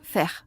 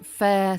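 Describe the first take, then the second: First: The vowel ends without a schwa glide. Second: The vowel ends with a schwa glide. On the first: The speaker calls it wrong. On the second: The speaker calls it right.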